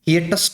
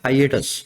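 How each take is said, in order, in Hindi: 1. पहला अक्षर 'hee' जैसा सुनाई देता है। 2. पहला अक्षर 'high' जैसा सुनाई देता है। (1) "कुछ ऐसा मत बोलना" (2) "इस वर्ड का प्रोनाउंसिएशन है"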